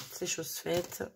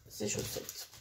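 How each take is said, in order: First: Said in the usual way. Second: Soft whisper to herself; whispered aside. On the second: Real, not acted. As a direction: breathe it under your breath. Repeats phrase, second time whispered.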